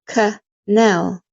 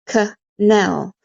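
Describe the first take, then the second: The two takes are said the same way.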